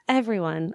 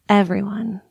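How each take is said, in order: First: It is said in a plain, normal voice. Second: It is said in a sultry, seductive voice.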